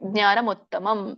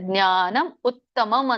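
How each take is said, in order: First: The two words are linked into one flow. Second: The two words are said separately, not linked. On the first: "ಕೂಡಿ ಹೇಳಿದ್ರು okay" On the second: "ಜ್ಞಾನಂ ಉತ್ತಮಂ ಅಂತ ಹೇಳಿದ್ರು ಕರಿಯ ನಡೆಯುತ್ತೆ"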